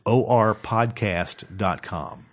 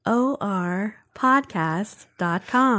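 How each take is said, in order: First: Slow, spelled-out delivery; slow and deliberate. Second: Slow, smooth announcer voice; smooth robotic announcer; too smooth android. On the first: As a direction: say it slowly. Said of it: "You gotta say it kinda slow". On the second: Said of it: "That's actually a pretty good voice". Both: Shown as a demonstration.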